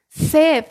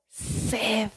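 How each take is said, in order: First: "Sed" punched out loud as one firm stressed word; emphatic key word. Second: "sed" dropped low and soft, almost to itself; quiet key word. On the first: Preacher driving home the key word to the congregation, loud and stressed. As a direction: hit "Sed" hard and loud, like a verdict. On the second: Preacher naming the verse's key word to the church, low and soft. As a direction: murmur "sed" low as it is first named. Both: Shown as a demonstration. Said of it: "la primera palabra del versículo es la clave".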